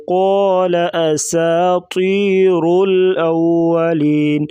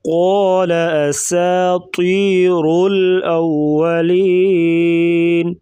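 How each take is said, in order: First: قال أساطير الأولين chanted at even pace; steady melodic recitation; Quran recitation. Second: Slow chant, heavy qaf, hissed seen. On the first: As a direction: recite it plainly in tune. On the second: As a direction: stress the throat qaf in قال, slower. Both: Shown as a demonstration. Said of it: "कॉफ को मोटा करेंगे".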